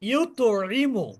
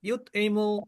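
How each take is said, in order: First: The 't' sound ends with an echoing bounce. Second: The 't' sound stops short without a bounce. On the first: The speaker calls it right. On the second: The speaker calls it wrong.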